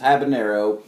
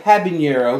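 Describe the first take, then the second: First: The middle consonant is a plain n. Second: The middle consonant is a ny sound. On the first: The speaker calls it right. "it doesn't have the little wavy thing, so it's an N" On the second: The speaker calls it wrong. "I've heard some people say habanero"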